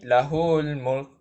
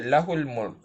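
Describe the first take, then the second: First: The vowel after the h is lengthened. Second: The vowel after the h is short. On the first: The speaker calls it wrong. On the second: The speaker calls it right.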